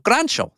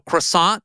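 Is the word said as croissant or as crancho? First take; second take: crancho; croissant. First: The word is said with a ch sound, crancho. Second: The word is said in a standard way, croissant. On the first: "croissant turns into crancho" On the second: "I say croissant"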